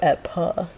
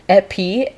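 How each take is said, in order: First: The prefix ends with a reduced 'uh' vowel. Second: The prefix ends with a clear 'ee' vowel. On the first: This is how the word is actually said. "but you go epa" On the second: This follows the spelling. "it's epi, E P I"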